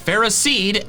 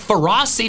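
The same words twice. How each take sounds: First: The first part sounds like the word ferrous. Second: The first part sounds like the word ferocity. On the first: The speaker calls it right. "The word is ferrous, so it's Ferroseed" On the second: The speaker calls it wrong. "sounds like the first part of its name comes from ferocity"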